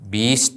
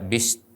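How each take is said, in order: First: The first vowel is held long. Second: The first vowel is kept short. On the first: The speaker calls it wrong. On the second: The speaker calls it right.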